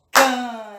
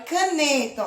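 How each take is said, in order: First: "Caneta" in three spaced beats, ca - ne - ta; split into syllables. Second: Said in the usual way. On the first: Shown as a demonstration. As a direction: sound out "Caneta" one syllable at a time. ("Caneta" sílaba por sílaba: ca - ne - ta) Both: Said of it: "Caneta tem três sílabas".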